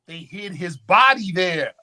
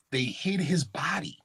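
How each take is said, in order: First: Said in the usual way. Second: Whisper. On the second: Acted. Whispered secret in lecture.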